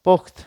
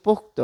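First: "পোক্ত" as pokt, cut off on t; stopped final consonant. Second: "পোক্ত" as pok-to, ending in o; vowel added at end. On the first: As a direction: say "পোক্ত" with no vowel after the t. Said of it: "থেমে যাচ্ছি". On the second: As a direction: open "পোক্ত" out into two syllables. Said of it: "ত এর পরে কিন্তু অ ধ্বনিটি চলে এসেছে". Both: Shown as a demonstration.

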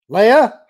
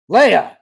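First: Loud, high call rising at the end; raised voice, questioning lilt. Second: Loud, high cry with a falling end; urgent shout, voice jumping up; alarmed shout. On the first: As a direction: call out for a reply, voice lifting. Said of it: "Han called". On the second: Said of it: "Han shouted". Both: A narrator's reading.

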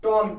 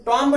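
First: टॉम ending cleanly on M; silent B. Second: टॉम्ब with an audible final B; wrong reading, टॉम्ब ending in "mb"; B pronounced. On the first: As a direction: say टॉम with no B after the M. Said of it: "बी silent है". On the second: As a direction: sound out the B after M in टॉम्ब. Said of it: "इसको टॉम्ब नहीं पढ़ेंगे". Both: Shown as a demonstration.

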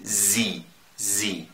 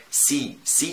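First: زي with a voiced Z; right German Z. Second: سي with a sharp S; wrong Spanish S. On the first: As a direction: say زي with a buzzing Z. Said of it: "احنا بنقول زي". (زي بزن) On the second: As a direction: say سي with a plain S, the wrong way. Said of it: "بتتكلم أسباني". (سي بالنطق الأسباني الغلط) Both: Shown as a demonstration.

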